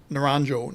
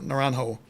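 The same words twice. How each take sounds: First: Naranjo with a hard English J sound. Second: Naranjo with the J as a breathy H; Spanish J. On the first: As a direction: say Naranjo with the J as in jump. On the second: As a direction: say Naranjo as Na-ran-ho, Spanish style. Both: Shown as a demonstration. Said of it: "I think you pronounced the J there".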